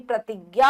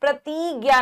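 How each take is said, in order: First: प्रतिज्ञा as 'pra-tig-gya'; brief i, quick into 'gya' in प्रतिज्ञा; short i. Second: प्रतिज्ञा as 'pra-tee-gya'; held ee before 'gya' in प्रतिज्ञा; long ee. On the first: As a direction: clip the 'ti' in प्रतिज्ञा. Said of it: "छोटी ई आएगी". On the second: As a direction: stretch the 'tee' in प्रतिज्ञा wrongly. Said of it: "प्रतिज्ञा नहीं". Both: Shown as a demonstration.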